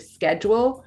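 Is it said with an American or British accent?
American. It is said the American way.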